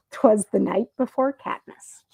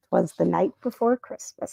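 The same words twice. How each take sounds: First: Said in the usual way. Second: Misread title. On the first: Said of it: "This is". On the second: Real, not acted.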